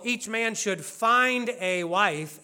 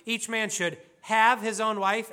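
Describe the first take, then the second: First: "find" drawn out slowly; slow, contrastive emphasis on "find"; stress on find. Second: "have" picked out as the key word; quoted verse with emphasis on "have"; stress on have. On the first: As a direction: lean long on the word "find". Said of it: "the word have here is not saying that". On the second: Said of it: "It's possible that the word have". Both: Shown as a demonstration.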